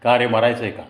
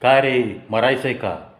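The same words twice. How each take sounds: First: A firm telling-off; stern repeated scolding. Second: Sharp shout at a careless pedestrian; angry shout. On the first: Biker teasing an old classmate who doesn't recognise him, mock stern. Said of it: "पुन्हा मी तोच प्रश्न केला". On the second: Biker shouting at a man who stepped in front, angry shout. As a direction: bark it at the man who crossed. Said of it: "तेव्हा मी ओरडलो". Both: Retold or imitated.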